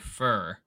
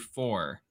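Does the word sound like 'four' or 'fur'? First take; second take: fur; four. First: The vowel is a reduced 'ur' sound, like fur. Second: The vowel is a full 'or' sound, like four. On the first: "I say fur" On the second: "I don't say four"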